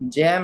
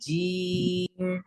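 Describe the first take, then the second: First: The vowel is an open 'ai' sound. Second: The vowel is a plain long 'ee' sound. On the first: The speaker calls it wrong. "जैम नहीं" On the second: The speaker calls it right. "एकदम प्लेन"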